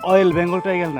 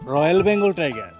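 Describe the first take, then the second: First: The first word starts without an R sound. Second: The first word starts with an R sound. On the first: The speaker calls it wrong. "অয়েল Bengal tiger না" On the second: The speaker calls it right. "উচ্চারণ ঠিক করেন"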